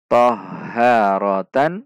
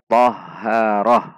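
First: The word ends with a full -tan syllable. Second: The word ends with a silent h stop. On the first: The word is read mid-sentence. "Ta marbutoh fathah tanwin tan" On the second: The word is read at the end of a sentence. "ta akan disukunkan dan berubah menjadi ha"

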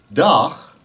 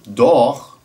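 First: The vowel is a plain, ordinary A sound. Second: The vowel sits between an A and an O. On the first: "met de gewone A van het woord dag of mag" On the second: "maar met iets ertussenin"

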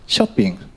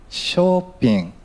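First: It is said with English pronunciation. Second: It is said with Thai pronunciation.

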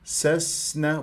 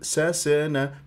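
First: The s flows with a long hissing breath. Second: The s is cut short with a bounce. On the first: The speaker calls it right. "تنطيها آه هذه الصفات" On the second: The speaker calls it wrong. "ما انطيتها حقها من الرخاوة"

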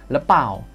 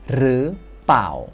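First: It starts with l and is said quickly. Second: It starts with r and the l is dropped. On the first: "kalau lebih cepat lagi, nanti orang Thai jadi ngomong gini" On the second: "loling dalam plau itu tidak diucapkan, jadinya pau doang"

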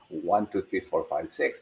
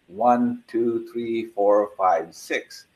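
First: The counting is at a faster pace. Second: The counting is at a slow, even pace.

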